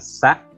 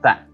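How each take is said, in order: First: It starts with a plain s sound. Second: It starts with a th sound. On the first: The speaker calls it wrong. "Bukan sa" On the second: The speaker calls it right. "tapi ta"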